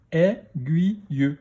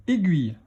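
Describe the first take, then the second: First: Slow "Aiguille", split into è, gui, ye; "Aiguille" in three separate beats; syllable by syllable. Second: Said in the usual way. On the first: Shown as a demonstration. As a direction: sound out "Aiguille" with a final ye. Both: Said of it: "dans quelle syllabe".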